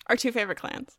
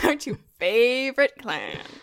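First: It is said with little sarcasm. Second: It is said with heavy sarcasm. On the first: The speaker calls it wrong. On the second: The speaker calls it right.

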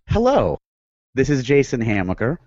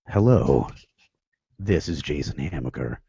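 First: It is said in his normal voice. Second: It is said in a put-on movie voice.

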